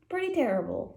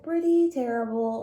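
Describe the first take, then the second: First: Said in the usual way. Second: Pretty repeated louder for emphasis; emphatic Pretty terrible; stress on Pretty. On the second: Real, not acted. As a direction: punch Pretty terrible the second time.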